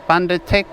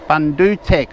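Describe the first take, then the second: First: The second vowel sounds like 'ah'. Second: The second vowel sounds like 'oo' in book. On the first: The speaker calls it wrong. "I think I've been saying Bundatech" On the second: The speaker calls it right. "The U is more like a O, uh, like when you're saying book"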